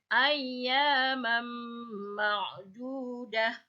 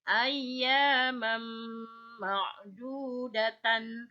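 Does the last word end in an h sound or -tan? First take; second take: h sound; -tan. First: The last word ends with a short h sound. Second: The last word ends with a -tan syllable. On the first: The reading stops here. "tapi kalau berhenti" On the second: The reading continues without stopping. "kalau dilanjutkan"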